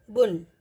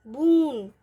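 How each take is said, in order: First: बुन with a short उ; बुन, keep the उ short; short u in bun. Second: बून with a long drawn ऊ; long oo in boon. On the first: Teacher showing the short उ in बुन. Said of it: "उच्चारण इसका लघु होगा". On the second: Teacher showing the long ऊ in बून. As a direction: stretch the ऊ in बून. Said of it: "क्या sound आएगी". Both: Shown as a demonstration.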